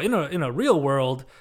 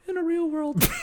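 First: It is said in an ordinary speaking voice. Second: It is said in a dramatic announcer voice. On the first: The speaker calls it wrong. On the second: The speaker calls it right.

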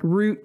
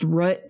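First: The name is said the way it looks spelled. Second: The name is said unlike its spelling suggests. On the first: The speaker calls it wrong. "it's spelled like Root" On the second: The speaker calls it right. "but it's pronounced Root"

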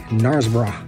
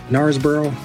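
First: It is said in a British accent. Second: It is said in a mixed British-American accent. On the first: "if you were to say it with a British accent" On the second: "maybe a combination between the British and maybe the American English version"

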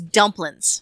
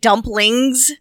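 First: The word ends without the G sound. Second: The word ends with a clear G sound. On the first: "they drop the G off of dumplings" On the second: "instead of dumplings"

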